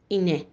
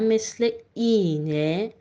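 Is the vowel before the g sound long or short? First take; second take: short; long. First: The first vowel is said short. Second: The first vowel is drawn out long. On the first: The speaker calls it wrong. "من نیومدم بگم اینه ... این اشتباه" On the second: The speaker calls it right. "من حرف صدادار قبلیش رو کشیده تر کردم"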